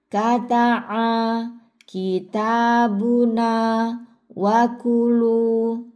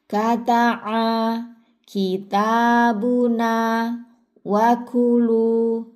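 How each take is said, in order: No difference in how they are said.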